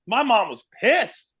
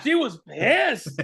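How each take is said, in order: First: Slow, drawn-out stress on pissed; pissed held long and high; emphatic. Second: Very slow, drawn-out pissed; pissed stretched even longer; extra emphatic. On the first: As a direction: lean hard on pissed. Emphatic retelling of mom's reaction. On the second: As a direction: drag out pissed for comic weight. Repeats it even slower. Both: Real, not acted.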